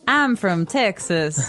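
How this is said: It is said with a Southern twang.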